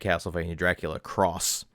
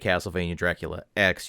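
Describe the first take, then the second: First: The final letter is read as 'cross'. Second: The final letter is read as 'ex'. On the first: The speaker calls it right. "you would say" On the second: The speaker calls it wrong. "you wouldn't say"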